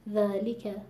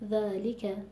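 First: The word flows with even, natural weight. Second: The same.

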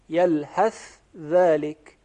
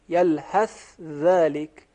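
First: The 'th' sound is pronounced clearly before 'dhalika'. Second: The 'th' sound is pronounced clearly before 'dhalika'.

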